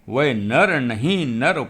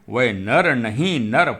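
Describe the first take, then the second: No difference in how they are said.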